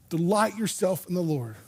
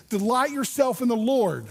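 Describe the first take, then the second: First: Said in the usual way. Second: "Delight yourself" pitched up and pressed home; emphatic verse. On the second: Real, not acted. Preacher pointing out the condition, "Delight yourself" high and emphatic. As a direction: proclaim "Delight yourself in the Lord" high and firm.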